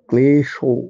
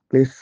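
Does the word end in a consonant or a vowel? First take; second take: vowel; consonant. First: The word ends with a final o vowel. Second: The word ends on the consonant sh. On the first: The speaker calls it right. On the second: The speaker calls it wrong.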